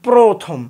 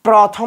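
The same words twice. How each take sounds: First: The first vowel is a closed 'o' sound. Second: The first vowel is an open 'aw' sound. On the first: The speaker calls it right. "না বলি প্রথম, প্রথম বলি" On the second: The speaker calls it wrong. "আমরা কি প্রথম বলি"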